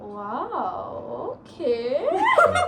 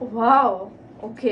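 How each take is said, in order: First: It sounds flirty. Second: It sounds disappointed.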